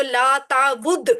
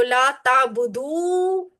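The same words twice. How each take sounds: First: لا تعبد slow, cut off dead on the final د; clean stop. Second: لا تعبدو very slow, the final و stretched out; lengthened ending. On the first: Teacher to students, slow لا تعبد with a clean stop. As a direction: stop sharply after تعبد, no vowel. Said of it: "صاف رکنا چاہیے". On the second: Teacher to students, very slow لا تعبدو with a long ending. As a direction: let the و of تعبدو ring long. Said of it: "ذرا سا لمبا کریں گے". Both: Shown as a demonstration.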